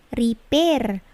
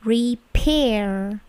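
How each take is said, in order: First: "repair" with a flat P, "ri-ber"; slow "repair", no puff on the P; wrong non-plosive P. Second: "repair" with a strongly puffed P; plosive P. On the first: Teacher showing students the wrong repair, unaspirated P. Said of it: "Bukan repair". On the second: Teacher correcting students' repair, aspirated P. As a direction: split "re-pair", air bursting on the P. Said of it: "Perhatikan bunyi P-nya itu plosif". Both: Shown as a demonstration.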